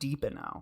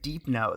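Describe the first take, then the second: First: The name is said with three syllables. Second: The name is said with two syllables. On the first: "not Deepano" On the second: "I always said Deep No though"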